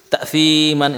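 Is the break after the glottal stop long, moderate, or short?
short. The break after the glottal stop is very short. "ini kecepatan"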